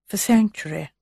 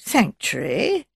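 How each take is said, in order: First: Said in the usual way. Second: Slow, rising, puzzled question. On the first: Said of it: "said Bunch quietly". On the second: A narrator's reading. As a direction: query the unfamiliar word, drawn out. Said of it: "said in a puzzled voice".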